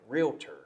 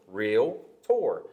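First: The word is said with three syllables. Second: The word is said with two syllables. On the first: "But I kind of say, like" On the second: "it's a 2-syllable word"

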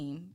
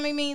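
First: Said as one syllable, like 'meem'. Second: Said as two syllables, like the name Mimi. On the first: The speaker calls it right. "It is definitely meme" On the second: The speaker calls it wrong. "who the fuck is Mimi? ... Because that's a person"

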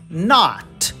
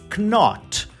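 First: No K sound is heard before the N. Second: A K sound is heard before the N. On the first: The speaker calls it right. "a gente suprime a letra K e diz not" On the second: The speaker calls it wrong. "a gente não diz knot"

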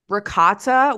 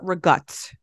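First: The word is said the standard English way. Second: The word is clipped, Italian-American dialect style. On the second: "we call it rigut"

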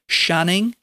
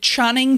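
First: The name begins with a sh sound. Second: The name begins with a ch sound. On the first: The speaker calls it wrong. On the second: The speaker calls it right.

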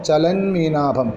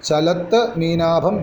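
First: The first word ends in an 'n' sound. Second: The first word ends in a 't' sound.

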